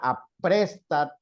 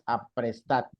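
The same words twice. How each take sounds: First: The stress is on the second syllable. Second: The stress is on the third syllable. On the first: The speaker calls it wrong. "tendría que tener acento porque termina en D" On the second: The speaker calls it right.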